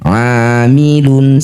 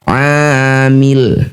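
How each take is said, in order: First: The word ends with a full -un ending. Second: The word ends on a silent final consonant. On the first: The reading continues without stopping. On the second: The reading stops at this word.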